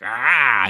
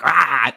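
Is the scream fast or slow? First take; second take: slow; fast. First: The scream comes out slower. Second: The scream jumps out fast.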